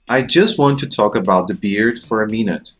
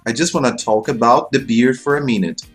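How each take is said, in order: First: "Want to" is said as two full words. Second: "Want to" is run together as "wanna".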